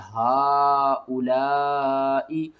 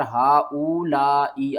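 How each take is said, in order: First: हा उ ला ई drawn out slowly, each vowel stretched; long vowels held in chant; correct recitation. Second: Said in the usual way. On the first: Shown as a demonstration. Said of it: "हा उ ला ई आपने नहीं पढ़ना". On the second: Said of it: "आपने नहीं पढ़ना".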